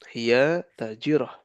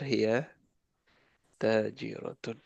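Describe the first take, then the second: First: The word ends in a clipped -ah. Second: The word ends in a full -atun. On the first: This is the everyday conversational form. "harokatnya lagi disukunkan" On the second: This is the form used when studying the rules. "Kalau lagi belajar"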